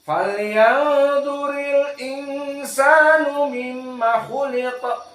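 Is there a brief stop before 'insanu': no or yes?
no. The l flows straight into insanu without stopping. "semuanya sama"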